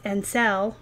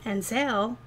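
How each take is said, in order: First: "sell" with a short, clean eh vowel; "sell" corrected, short eh, not "sale"; clear sell. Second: "sell" said like "sale", with an ay vowel; "sell" drawn out with a long ay sound; accent on sell. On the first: Shown as a demonstration. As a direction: fix it to a crisp "sell". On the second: Real, not acted. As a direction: let "sell" slip into "sale". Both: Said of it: "sometimes my accent, it sounds like I say sale".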